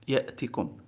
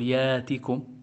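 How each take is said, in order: First: The glottal stop is fully pronounced. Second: The glottal stop becomes a long vowel. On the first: This follows a dialect that fully realizes the glottal stop. "وبعضهم كان يحققها" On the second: This follows a dialect that substitutes the glottal stop. "فبعض العرب كانت تبدلها"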